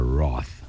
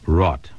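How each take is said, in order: First: The word ends with a 'th' sound. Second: The word ends with a 't' sound. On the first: The speaker calls it wrong. "never wroth" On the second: The speaker calls it right.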